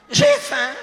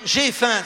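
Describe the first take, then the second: First: Squeaky high punchline. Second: Said in the usual way. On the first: Shown as a demonstration. Priest delivers the joke's punchline about a hungry husband in a high comic squeal. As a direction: jump way up and louder on J'ai faim. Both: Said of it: "ça veut dire quoi?".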